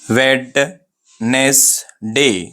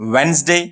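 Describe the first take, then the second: First: The word is said slowly with every syllable. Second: The word is said quickly with syllables merged. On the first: The speaker calls it wrong. "अगर मैं इसको आराम से pronounce करा तो ये word wrong हो जाता" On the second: The speaker calls it right. "अगर मैं तेजी से प्रोनाउंस करा"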